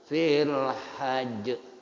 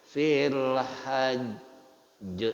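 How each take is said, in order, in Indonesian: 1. Huruf j di akhir langsung diucapkan tanpa pantulan. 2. Huruf j di akhir ditahan dan dipantulkan dengan kuat.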